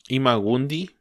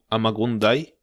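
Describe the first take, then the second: First: The name is read with Spanish vowel sounds. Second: The name sounds like English 'I'm gonna die'. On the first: The speaker calls it wrong. "hay un personaje que se llama um" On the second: The speaker calls it right. "en realidad se pronuncia"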